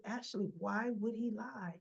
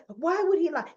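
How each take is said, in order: First: Reasoning. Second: Loud, high-pitched frantic question; frazzled. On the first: Tracy reasoning with frazzled Ashley, acted soft and reasonable. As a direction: gently question the frazzled friend. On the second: Ashley protesting about the waiter, acted frazzled. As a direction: throw out the question, acting flustered. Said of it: "Now she's getting frazzled". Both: Acted.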